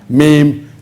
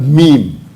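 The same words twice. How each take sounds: First: The word is said without an 'ee' vowel. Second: The word is said like 'meem', with an 'ee' vowel. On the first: The speaker calls it wrong. "or meme" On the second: The speaker calls it right. "The right pronunciation is a meme"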